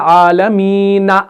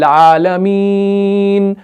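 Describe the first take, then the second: First: The final n is followed by an a vowel. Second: The final n ends with no vowel. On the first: The speaker calls it wrong. "हम ऐसे तो नहीं पढ़ते" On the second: The speaker calls it right. "नून को हम साकिन करते हैं"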